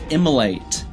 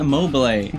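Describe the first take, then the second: First: The word has three syllables, without 'bil'. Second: The word has four syllables, including 'bil'. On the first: The speaker calls it right. "It's immolate" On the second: The speaker calls it wrong. "It's not immobilate"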